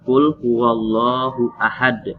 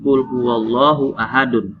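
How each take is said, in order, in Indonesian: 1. Huruf d di akhir berhenti, tanpa vokal. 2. Huruf d di akhir diikuti vokal. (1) "Jadi dari berbaris menjadi sukun karena dia diwakafkan"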